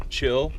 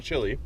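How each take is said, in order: First: "chill" with short i, one syllable; "chill" like cold, not chili. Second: "chili" with two syllables, chi-li; "chili" like the pepper sauce. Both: Shown as a demonstration. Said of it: "Chill, not chili".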